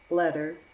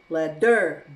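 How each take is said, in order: First: The middle T is a soft, D-like flap. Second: The middle T is a hard, stressed T. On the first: The speaker calls it right. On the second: The speaker calls it wrong.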